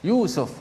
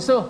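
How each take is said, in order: First: The first vowel is held long. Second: The first vowel is kept short. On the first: This is how Arabs say it, following the long vowel. "dia akan panjangkan Yusuf" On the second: This is how Malays say it, ignoring the long vowel. "Kalau kita orang Melayu, kita cakap Yusuf"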